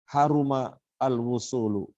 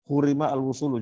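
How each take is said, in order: First: The verb begins with the vowel 'a'. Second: The verb begins with the vowel 'u'. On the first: The verb is in the active voice. "yang kedua dibaca mabni, eh, apa maklum" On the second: The verb is in the passive voice. "juga boleh. Dibaca dibaca majhul semuanya boleh"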